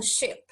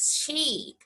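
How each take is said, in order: First: Short, quick i in "ship"; short vowel. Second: Long drawn-out ee in "sheep"; long vowel. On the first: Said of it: "eu não falo ship". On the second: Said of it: "É prolongado". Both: Shown as a demonstration.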